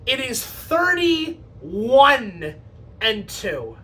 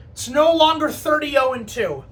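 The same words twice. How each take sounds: First: Slow, dragged-out reveal. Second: "no" leaned on, falling close; announcing the old record is gone; stress on no. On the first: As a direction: drawl out the new record in disbelief. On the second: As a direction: hit "no longer" firmly. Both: Shown as a demonstration.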